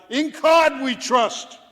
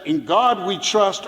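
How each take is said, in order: First: High, slow mock shout; hammed-up skipper yell. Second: Said in the usual way. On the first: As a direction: bellow the pun slowly, much higher. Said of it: "our skipper would yell". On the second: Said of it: "Whenever Jim said".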